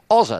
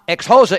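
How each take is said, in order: First: Xhosa with no ex in front; correct pronunciation. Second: Ex-Xhosa with an extra ex in front; wrong pronunciation. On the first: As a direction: say Xhosa cleanly without the ex. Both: Shown as a demonstration. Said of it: "That's how you say the word".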